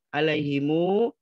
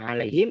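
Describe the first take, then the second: First: The word ends with an added u vowel. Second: The word ends on a closed m sound. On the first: This is the Warsh reading. "ini dibaca alaihimu" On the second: This is the Hafs reading. "kalau hafaz dibaca alaihim"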